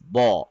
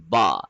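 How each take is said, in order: First: The vowel is dark and heavy, like aw. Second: The vowel is clear and light, without aw. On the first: The speaker calls it wrong. "If we add an aw sound, it will sound like this ba, but that will be wrong" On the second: The speaker calls it right. "It is ba. There is no aw sound"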